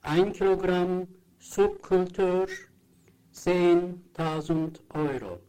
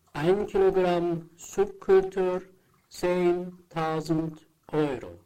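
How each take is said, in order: Both takes have the same delivery.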